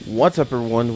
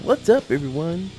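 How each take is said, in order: First: It is said in a glum, unhappy tone. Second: It is said in a bright, cheerful tone.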